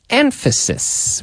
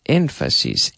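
First: Emphasis said high and slowly drawn out; high, slow model take. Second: Emphasis said low and soft, settling down; low, quiet model take. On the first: Teacher modelling the word for students, high and slow. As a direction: lift Emphasis high and stretch it. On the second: Teacher modelling the word for students, low and quiet. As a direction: drop the voice on Emphasis. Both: Shown as a demonstration. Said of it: "We say emphasis".

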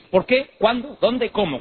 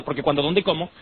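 First: "Por qué", "Cuándo", "Dónde", "Cómo" each high as separate questions; questioning stress. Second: "Por qué", "Cuándo", "Dónde", "Cómo" run together without question stress; unstressed, not questions. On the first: Showing which words take accents, stressed questioning "Por qué", "Cuándo", "Dónde", "Cómo". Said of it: "Cuando son preguntas llevan". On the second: Showing words without accents, unstressed "Por qué", "Cuándo", "Dónde", "Cómo". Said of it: "cuando no son preguntas". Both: Shown as a demonstration.

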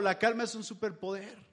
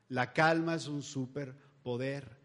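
First: Said in the usual way. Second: "La calma es un superpoder" spoken slowly, each word weighed; slow emphasis. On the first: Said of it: "Sí es cierto". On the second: Shown as a demonstration. Preacher repeating the shirt's motto to his audience, slowly. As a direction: lay the motto down slow and deliberate. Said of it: "Lo poderoso de esa playera es la frase".

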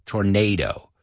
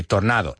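First: "Tornado" as tor-NAY-doh; English tornado. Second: "Tornado" with Spanish vowels. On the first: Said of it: "lo pronunciamos igual". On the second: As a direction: read "Tornado" as written in Spanish. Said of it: "you see it and say". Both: Shown as a demonstration.

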